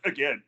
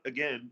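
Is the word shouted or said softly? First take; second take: shouted; softly. First: It is shouted loudly in a deep voice. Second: It is said softly in a casual voice. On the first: The partner is pushing hard for one more rep. The speaker calls it right. "you put that extra bit of bass in your voice, and you just you you give him the N C O shout" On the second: It is a mild, casual suggestion to repeat. The speaker calls it wrong. "it's not again"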